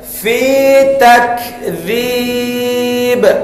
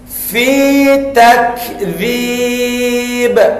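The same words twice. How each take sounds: First: The k is released with a soft breathy hiss. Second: The same.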